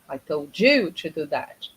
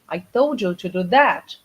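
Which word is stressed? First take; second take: you; that. First: The word 'you' carries the main stress. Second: The word 'that' carries the main stress. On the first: The listener, not another person, was told. "It means I told you. You were supposed to do that, not him, not her" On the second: That action, not another one, was meant. "not this"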